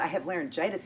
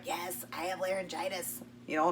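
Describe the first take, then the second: First: Said in the usual way. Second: Laryngitis voice. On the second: Retold or imitated. Answering his doubt she's the same person, in laryngitis voice. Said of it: "I had no voice".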